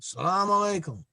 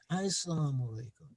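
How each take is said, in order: First: It starts directly with 'salam', no opening vowel. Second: It starts with 'as' and has 'salamu'. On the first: This is the form people used to say. "they used to say" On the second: This is the form he taught people to say. "he said"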